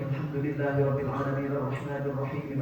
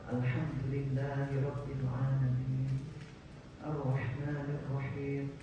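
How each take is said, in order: First: It is recited quickly, verses joined in one breath. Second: It is recited calmly, pausing between verses. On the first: The speaker calls it wrong. "imamnya ternyata bacanya di wasol. ... Satu napas itu ya" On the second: The speaker calls it right. "Kita gak terlalu cepat, gak terlalu lambat juga"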